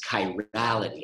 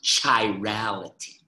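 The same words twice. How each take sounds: First: The word begins with a hard 'k' sound. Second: The word begins with a 'ch' sound. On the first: The speaker calls it right. "It's chirality. ... that is a hard K sound" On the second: The speaker calls it wrong. "Please do not say ch chirality"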